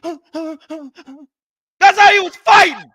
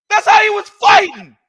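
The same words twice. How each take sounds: First: Slow laughing delivery, chuckling through it. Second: Said in the usual way. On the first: Real, not acted. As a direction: laugh through the words, drawn out. Laughing while mocking the fight.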